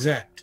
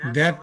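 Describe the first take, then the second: First: The word starts with a 'z' sound. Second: The word starts with a 'th' sound. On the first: This is how some Egyptian speakers say it. "বলে জ্যাট" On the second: This is the standard pronunciation. "দ্যাট না বলে"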